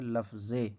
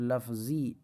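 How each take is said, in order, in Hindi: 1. शब्द 'ay' स्वर पर खत्म होता है। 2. शब्द 'ee' स्वर पर खत्म होता है। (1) "बड़ी या पढ़ेंगे" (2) "इसका तलफ़ुज़ लफ्ज़ी इस तरीके से होता है, लेकिन ये छोटी या नहीं"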